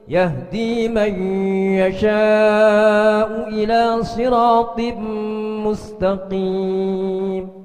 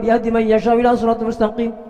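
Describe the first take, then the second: First: It is recited slowly, with each word drawn out. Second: It is recited quickly, with words run together. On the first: The speaker calls it right. "Disuruh baca tartil begitu" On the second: The speaker calls it wrong. "Kan bacanya begitu kalau lima belas menit satu juz"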